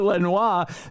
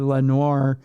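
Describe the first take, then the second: First: The name is said with French sounds. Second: The name is said with English sounds. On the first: "That that's the French pronunciation" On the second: "but it's probably Lenoir"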